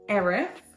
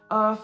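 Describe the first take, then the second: First: The name is said as 'Erith', with two syllables. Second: The name is said like the word 'earth'. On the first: The speaker calls it right. "There we go" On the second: The speaker calls it wrong. "That is not how you pronounce that"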